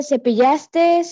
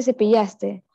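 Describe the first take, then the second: First: "cepillaste" with an extra final S; cepillaste with added S. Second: Said in the usual way. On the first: Shown as a demonstration. Student showing the class the error, "cepillaste" with final S added. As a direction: end "cepillaste" on a hiss, as cepillastes. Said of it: "No se dice". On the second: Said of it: "se dice".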